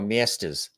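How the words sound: It is said in a New York accent. "cousins in New York go miestas"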